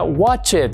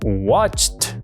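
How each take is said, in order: First: The ending does not sound like a T. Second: The ending sounds like a T. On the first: The speaker calls it wrong. "no se pronuncia" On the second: The speaker calls it right. "como una T"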